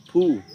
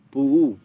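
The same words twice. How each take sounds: First: "pu" with one held long u; long vowel. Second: "Puu" with the u split in two short beats; split vowel. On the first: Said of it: "long vowel can be split into two short ones". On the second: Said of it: "split into two short ones". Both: Shown as a demonstration.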